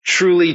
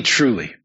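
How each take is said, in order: First: Truly lifted high and loud; solemn raised Truly; emphatic truly. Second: Said in the usual way. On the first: Shown as a demonstration. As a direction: ring out Truly as an opening summons. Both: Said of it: "opens his teaching with the words".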